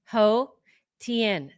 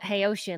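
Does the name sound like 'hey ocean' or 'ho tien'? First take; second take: ho tien; hey ocean. First: The name sounds like 'ho tien'. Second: The name sounds like 'hey ocean'. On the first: The speaker calls it right. "it's actually two different words" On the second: The speaker calls it wrong. "I said it incorrectly, I was calling it Hey Ocean, like [name]"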